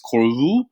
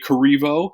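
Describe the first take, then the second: First: The surname is said the original French way. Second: The surname is said the Americanized way. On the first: This is the name's true original pronunciation. The speaker calls it right. "it's Corvu" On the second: This is how the family says it now. The speaker calls it wrong. "we actually say Corrivo, but it's actually not pronounced that way"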